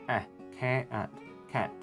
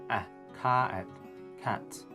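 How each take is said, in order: The two takes are said the same way.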